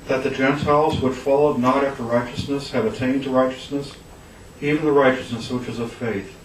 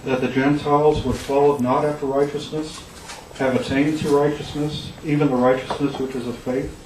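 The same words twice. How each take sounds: First: It is said as an emphatic statement. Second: It is said with a questioning tone.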